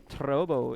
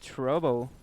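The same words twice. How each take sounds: First: The r sounds foreign, like a pure r. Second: The r sounds like a usual English r. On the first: "the way I pronounce my R's. Like I say trouble" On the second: "instead of trouble"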